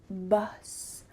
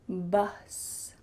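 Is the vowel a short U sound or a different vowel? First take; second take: short U; short U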